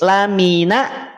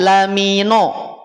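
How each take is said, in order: First: The nun sounds thin with an open vowel. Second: The nun sounds thick with a rounded vowel. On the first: The speaker calls it right. "Nun itu tipis" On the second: The speaker calls it wrong. "nun jangan dulu tebal. Nun tidak tebal. Tidak lamino"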